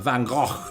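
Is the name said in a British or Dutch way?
Dutch. It is said with a guttural, Dutch-style sound.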